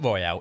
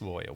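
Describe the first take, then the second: First: The word is said as 'royale', French-style. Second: The word is said as plain English 'royal'. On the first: The speaker calls it wrong. "It's not Royale" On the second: The speaker calls it right. "it's Royal"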